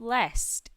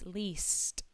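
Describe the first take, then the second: First: The word sounds like 'lest'. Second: The word sounds like 'least'. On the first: The speaker calls it wrong. "It is not lest" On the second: The speaker calls it right. "it is least"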